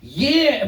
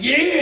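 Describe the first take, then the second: First: Too-eager high yeah; eager yes. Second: High, loud, eager yeah; eager yes. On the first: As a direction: blurt it out way too keen. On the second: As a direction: snap it out, overly keen. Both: Retold or imitated. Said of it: "you can't just immediately be like".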